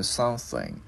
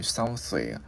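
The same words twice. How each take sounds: First: "something" closed on a hummed NG; ringing final NG. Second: "something" with air blown through the TH, ending left open; tongue-between-teeth TH. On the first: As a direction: let the last sound of "something" resonate. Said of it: "Cái mình ngân cái chữ ngờ lên". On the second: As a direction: blow softly through the TH in "something". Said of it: "đưa lưỡi qua giữa hai răng mình thổi hơi". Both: Shown as a demonstration.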